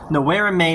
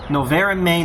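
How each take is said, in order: First: The v in noverem sounds like a w. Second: The v in noverem sounds like a v.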